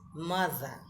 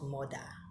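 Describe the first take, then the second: First: The middle consonant is a soft th sound. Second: The middle consonant is a hard d sound. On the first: The speaker calls it right. "M O T H E R is mother" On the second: The speaker calls it wrong. "not mother. Mother is to kill somebody"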